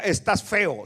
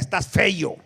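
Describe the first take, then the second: First: The last word ends with a plain 'eo'. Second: A 'y' sound comes before the final 'o'. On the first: This is the standard way of saying it. The speaker calls it right. "Él no decía estás feo" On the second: This is how rural country people say it. The speaker calls it wrong. "sino que decía estás feo"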